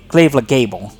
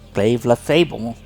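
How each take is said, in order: First: The second word begins with a G sound. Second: The second word begins with an F sound. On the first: The speaker calls it right. "I'm sorry" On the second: The speaker calls it wrong. "I keep thinking that last G is an F for some reason"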